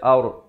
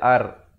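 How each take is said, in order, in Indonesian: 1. Bunyi r itu berat dan tebal. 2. Bunyi r itu ringan dan tipis. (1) "Ard di sini dia baca tebal" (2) "Jangan baca ar"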